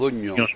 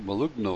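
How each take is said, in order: First: The gn is said as one ñ sound. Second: The gn is said as separate g and n. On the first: The speaker calls it right. "que es la pronunciación, sí, correcta en español, porque el GNS en italiano suena como la ñ" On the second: The speaker calls it wrong. "Yo siempre lo digo así"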